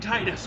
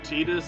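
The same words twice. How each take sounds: First: The first vowel sounds like 'eye'. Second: The first vowel sounds like 'ee'. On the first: This is the speaker's own habitual pronunciation. The speaker calls it right. "it's fucking Titus with me" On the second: This is the intended pronunciation of the name. The speaker calls it wrong. "Titus is putting emphasis on E, not I"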